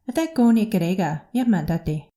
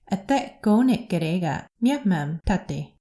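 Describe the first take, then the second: First: It is said at a faster pace. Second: It is said at a slower pace.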